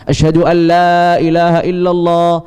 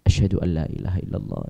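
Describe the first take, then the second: First: The phrase is said loudly, in a raised voice. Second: The phrase is said quietly, in a low voice. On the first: "Baru kemudian dikeraskan" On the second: "kemudian dipelankan"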